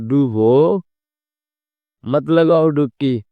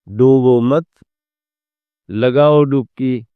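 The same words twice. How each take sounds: First: The pause comes after 'dubo'. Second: The pause comes after 'mat'. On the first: Drown; do not take a dip. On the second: Do not drown; take a dip.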